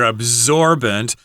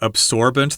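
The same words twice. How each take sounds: First: The S is said as a Z sound. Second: The S is said as an S sound. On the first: "we've got the S as a Z sound here" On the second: "in some places you could say absorbent. That's fine as well"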